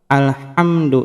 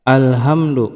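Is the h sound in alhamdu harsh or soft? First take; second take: soft; harsh. First: The h is a soft, light breathy sound. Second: The h is a harsh, heavy throat sound. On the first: All praise belongs to God. The speaker calls it right. "alhamdu ini adalah hak kecil ya" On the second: Death belongs to God. The speaker calls it wrong. "Jangan sampai merubah menjadi hak besar ya"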